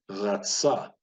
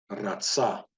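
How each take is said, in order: First: "Ratsa" with the R from the back of the throat; throaty, untrilled R opening "Ratsa". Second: "Ratsa" with the R rolled on the tongue; trilled R. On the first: Teacher repeating it for learners to try, back-throat R. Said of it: "from the back of the throat". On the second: Teacher demonstrating the other option, trilled R. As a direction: trill the first sound of "Ratsa". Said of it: "trilling the R". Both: Shown as a demonstration.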